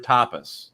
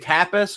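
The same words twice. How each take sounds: First: The first A is said as a soft A. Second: The first A is said as a hard A. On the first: "soft A" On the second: "hard A"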